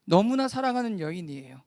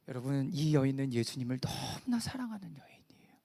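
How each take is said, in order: First: Firm, projected preaching voice; emphatic declaration to the congregation; full-voiced repetition. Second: Low, half-whispered aside to the congregation; breath-heavy, lowered preaching voice; hushed emphasis. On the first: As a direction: bring the words back out at full voice. Repeats hushed words at full voice. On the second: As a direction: drop to a near-whisper for the tender point. Hushed first take, then repeated aloud. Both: Real, not acted.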